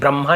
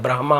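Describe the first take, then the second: First: The h sound comes after the m. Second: The h sound comes before the m. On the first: The speaker calls it wrong. "वैसे ब्रह्मा नहीं होता" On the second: The speaker calls it right. "ब्रह्मा होता है, एच पहले आता है"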